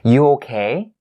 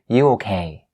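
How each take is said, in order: First: The pitch rises at the end. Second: The pitch does not rise at the end. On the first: The speaker calls it right. "raise your intonation at the end of the sentence to make it a question" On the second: The speaker calls it wrong. "You don't say"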